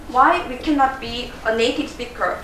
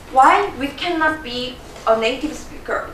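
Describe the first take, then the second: No difference in how they are said.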